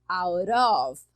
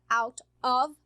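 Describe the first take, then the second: First: The T flaps into the vowel, sounding R-like. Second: The two words are said separately, T unlinked. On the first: The speaker calls it right. "eu junto T mais o O. E ele fica com som de R" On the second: The speaker calls it wrong. "ao invés de falar out of"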